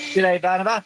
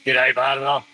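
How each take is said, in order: First: It is said in a normal speaking voice. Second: It is said in a put-on deep voice.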